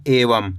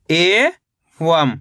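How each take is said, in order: First: Said in the usual way. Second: एवं as long rising "e", pause, "vam"; split syllables. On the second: Shown as a demonstration. Teacher breaking down एवं for learners, split syllables. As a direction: stretch एवं into two separate syllables. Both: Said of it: "तो मिलके बन जाएगा".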